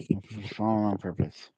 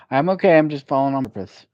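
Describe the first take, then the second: First: Said in the usual way. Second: Loud and high, brushing it off; loud cheerful reply. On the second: Retold or imitated. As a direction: call it out brightly to reassure. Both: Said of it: "And so sometimes I say".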